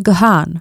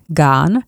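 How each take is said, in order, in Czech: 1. Jméno se vyslovuje se dvěma slabikami, Ga-han. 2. Jméno zní jako jedna slabika, Gahn.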